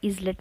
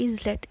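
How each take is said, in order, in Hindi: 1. s बोला जाता है। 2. s बोला जाता है।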